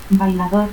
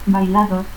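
First: Said in the usual way. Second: Bailado for bailador, ending cut short; altered final R. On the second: Shown as a demonstration. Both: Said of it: "confusión de R y T al final".

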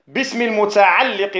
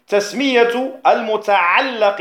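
First: المتعلق with an "i" after the doubled lam; kasra on المتعلق. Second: المتعلق with an "a" after the doubled lam; fatha on المتعلق. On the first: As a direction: say المتعلق as al-muta'alliq. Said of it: "بالكسر". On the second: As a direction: say المتعلق as al-muta'allaq. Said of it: "بالفتح". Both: Shown as a demonstration.

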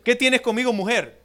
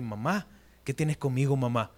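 First: Formal, distancing address. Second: Intimate address to mom. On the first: Retold or imitated. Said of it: "era una forma respetuosa". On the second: Shown as a demonstration. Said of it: "no era una forma íntima como decirle".

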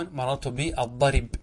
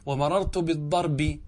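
First: Slow "بالضرب" said bi ad-darib, stopping on b; pause by transfer. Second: Slow "بالضرب" said bid-darbi with final i; genitive ending. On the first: Teacher corrects himself to pause form, "بالضرب" said ad-darib. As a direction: put the i after r in "بالضرب", bare final b. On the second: Teacher gives genitive before pausing, "بالضرب" said bid-darbi. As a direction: end "بالضرب" slowly on a clear bi. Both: Shown as a demonstration. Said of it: "انقل حركة الباء إلى الراء".

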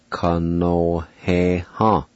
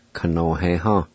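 First: Ka no he ha said slowly and carefully, every syllable clear; slow careful pronunciation. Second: Said in the usual way. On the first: Shown as a demonstration. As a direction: draw out Ka no he ha for the learner. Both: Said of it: "it's pronounced".

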